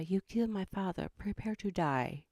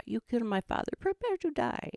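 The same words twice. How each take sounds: First: Lightly voiced movie avenger; a hint of film swordsman; Inigo Montoya. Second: Mock-dramatic film swordsman; Inigo Montoya. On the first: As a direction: deliver the revenge line with understated mock menace. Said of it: "trying to do, shoot, now what's his name?". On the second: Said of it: "Indigo Monti-, yes, Inigo Montoya".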